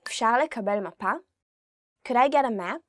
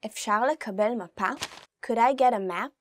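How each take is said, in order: Both takes have the same delivery.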